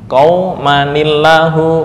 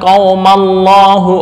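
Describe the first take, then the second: First: A 'ni' sound links the two words together. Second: The words run together without an inserted 'ni' sound. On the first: The speaker calls it right. "diberikan tanda nun kecil" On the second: The speaker calls it wrong. "membacanya jangan salah, ... ah, malah bahaya"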